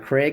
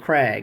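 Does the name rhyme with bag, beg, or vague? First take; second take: vague; bag. First: The vowel sounds like the one in vague. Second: The vowel sounds like the one in bag. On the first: The speaker calls it wrong. "It's not a Craig man's name" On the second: The speaker calls it right. "It's a Krag"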